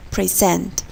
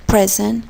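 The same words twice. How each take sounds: First: "present" with a weak first syllable and strong second; verb stress. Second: "Present" with a short open e in a stressed first syllable; noun stress. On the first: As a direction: stress SENT in "present", like pri-ZENT. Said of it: "always in the last syllable". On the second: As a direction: stress PRE in "Present", like PREZ-ent. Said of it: "stress is marked on the first syllable". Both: Shown as a demonstration.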